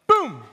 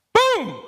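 First: Toned-down boom. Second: A loud, very high, shouted "Boom!"; too loud boom. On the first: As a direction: still big, but reined in a little. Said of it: "A little better". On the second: Preacher testing a sound effect with the congregation: a boom that is too loud. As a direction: blast the boom at full force. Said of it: "Is that too loud?". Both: Shown as a demonstration.

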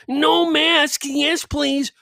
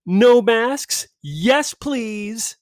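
First: High mocking chant of the invite; higher mock-cheerful reading; mocking invite line. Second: High mocking read of the invite; higher mock-cheerful reading; mocking invite line. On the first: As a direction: sneer it much higher. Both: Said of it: "the first line".

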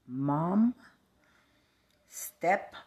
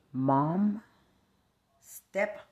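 Both takes have the same delivery.

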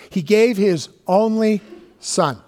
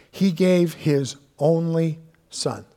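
First: "He gave his only son" with gave punched higher and louder, slow; stress on gave. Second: Said in the usual way. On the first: Shown as a demonstration. Preacher to congregation, stressing gave, higher and louder. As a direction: lean hard on gave, then let son drop. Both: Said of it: "repeated with more force".

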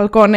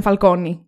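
First: Falcone said "fal-KO-ne", ending in "eh"; Falcone ending in -όνε. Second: Falcone said "fal-KO-nee", ending in "ee"; Falcone ending in -όνι. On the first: Host refusing the reading, Falcone ending in "-neh". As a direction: close Falcone on a short "eh". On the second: Host insisting on the surname, Falcone ending in "-nee". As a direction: close Falcone on an "ee". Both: Shown as a demonstration. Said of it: "αν είναι Falcone".

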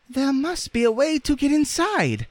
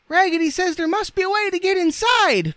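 First: Very high, squeaky rag doll; Raggedy Ann's voice. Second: Loud, extremely high squeaky cry; dolls crying out. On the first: Rag doll thinking aloud to the others, squeaky. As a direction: say it in a small piping falsetto. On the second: Dolls echoing their leader together, crying out. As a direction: shout it in a shrieky doll falsetto. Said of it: "cried all the dolls". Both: A narrator's reading.

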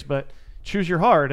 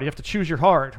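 First: "choose your hard" slowed right down, each word weighted; stress on choose your hard. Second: Said in the usual way. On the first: Real, not acted. Coach driving home his motto to the host, slow and emphatic. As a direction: lean on "hard" and let it land. Repeats the phrase slowly, emphatic.

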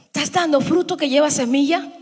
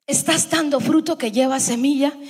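Both takes have the same delivery.

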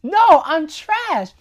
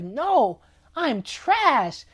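First: Higher, louder and slow, milking the word trash; an overplayed little utensil insisting it is garbage; dramatic Forky. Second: A light, casual take on Forky saying he's trash; just toss it off lightly as Forky; a lightly voiced little utensil feeling worthless; mopey Forky. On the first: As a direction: ham up Forky's gloom for the laugh. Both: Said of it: "He's like".

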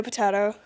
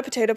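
First: Potato said "puh-TAH-toh"; broad-A potato. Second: Potato said "puh-TAY-toh"; long-A potato. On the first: Teacher compares two pronunciations, potato with broad A. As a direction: say "potato" with an AH in the middle. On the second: Teacher compares two pronunciations, potato with long A. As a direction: say "potato" with an AY in the middle. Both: Retold or imitated. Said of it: "about different words".

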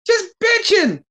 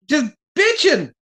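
First: Exasperated much higher. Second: Exasperated high. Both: Real, not acted. Exasperated rant about Page.

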